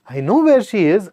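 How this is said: It sounds cheerful and happy. The news is good. "I'm cheerful, joyful, happy"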